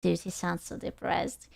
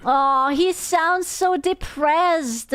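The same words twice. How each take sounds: First: Soft, low, sunken remark; subdued pity. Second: Slow, higher, long-stretched cooing sympathy; drawn-out pity. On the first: Viewer repeating that the host sounds depressed, subdued pity. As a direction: say it low and hushed, almost to yourself. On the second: Viewer pitying the depressed host, drawn-out pity. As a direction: draw it out as you feel sorry for him. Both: Real, not acted.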